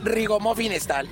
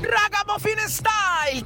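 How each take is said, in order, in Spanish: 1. La primera sílaba se dice con la vocal 'i'. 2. La primera sílaba se dice con la vocal 'a'. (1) "no es rigomuffin style" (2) "es ragamuffin"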